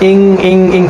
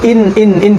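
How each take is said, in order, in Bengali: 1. n টি একটি ng-এর মতো নাকি গুনগুনে চাপা পড়ে যায়। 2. n টি জিভ দিয়ে স্পষ্টভাবে উচ্চারিত হয়। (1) "ইং ইং ইং করছি" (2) "আমি কিন্তু ইন ইন ইন করছি না"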